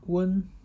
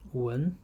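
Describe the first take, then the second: First: The syllable is said with the first tone. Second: The syllable is said with the second tone.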